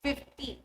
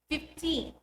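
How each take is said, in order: First: FIFty, stressed on FIF with a short light ending; stress on first syllable. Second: Put-on fifTEEN, stressed on a long TEEN with a clear n; last-syllable stress. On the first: Teacher comparing numbers, FIFty stressed at the front. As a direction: hit FIF and drop the -ty. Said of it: "Let's compare". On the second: Teacher comparing numbers, fifTEEN stressed at the end. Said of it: "to stress the last syllable". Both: Shown as a demonstration.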